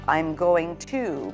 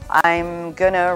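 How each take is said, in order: First: Each word of the phrase is clearly enunciated. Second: The phrase is reduced and run together. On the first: The speaker calls it right. "Be careful to enunciate" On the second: The speaker calls it wrong. "Sometimes we become lazy with our speech"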